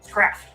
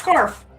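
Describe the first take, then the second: First: The r comes after the s: scraff. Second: The r comes before the vowel: scarf. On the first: This is a small child's version kept by the family. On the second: This is the standard form of the word. "Not Scarf"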